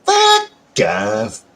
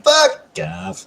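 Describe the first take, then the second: First: Stretched braying donkey call; a hee-haw braying version. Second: Said in the usual way. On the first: Shown as a demonstration. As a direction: bray it like a donkey. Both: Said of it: "The donkey call".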